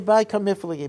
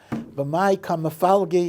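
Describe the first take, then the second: First: The second word is pronounced kamiflagi. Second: The second word is pronounced kamafalgi. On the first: This follows the customary reading tradition. "you say by kamiflagi because that's what we say" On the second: This follows Aramaic grammar. "B'mai kamafalgi is what you say"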